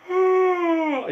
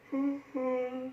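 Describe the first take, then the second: First: High open yawning sigh; a big audible yawn on a sigh; demo yawn sigh. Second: Soft hidden yawn breath; a quiet, near-silent yawn; secret yawn. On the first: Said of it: "just like that". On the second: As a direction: yawn inside with barely any sound. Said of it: "like that". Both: Shown as a demonstration.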